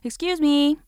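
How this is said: It is called out to get attention.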